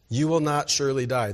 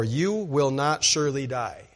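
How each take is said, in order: First: "will" leicht betont, ruhig fallend; stress on will. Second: "You" leicht betont, Rest fallend; stress on you. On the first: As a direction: das Wort "will" hervorheben. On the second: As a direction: den Anfang "You" hervorheben. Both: Shown as a demonstration.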